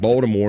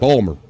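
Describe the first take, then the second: First: The T is pronounced in full. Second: The T is dropped and the word shortened.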